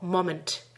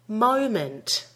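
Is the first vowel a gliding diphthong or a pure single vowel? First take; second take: pure vowel; diphthong. First: The first vowel is a pure single vowel. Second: The first vowel glides as a diphthong. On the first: The speaker calls it wrong. "Many non-native speakers say mo, moment" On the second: The speaker calls it right. "make sure you're getting an O diphthong vowel in the first syllable"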